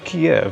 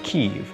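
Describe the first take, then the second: First: The name is said with Russian pronunciation. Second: The name is said with Ukrainian pronunciation. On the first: It is disrespectful to Ukrainians. The speaker calls it wrong. "if I'm pronouncing it Russian" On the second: It respects the Ukrainian language. The speaker calls it right. "if I'm pronouncing it Ukrainian"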